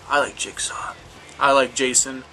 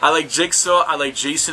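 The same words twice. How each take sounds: First: It is said in a calm, put-on Jigsaw voice. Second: It is said in the speaker's normal voice.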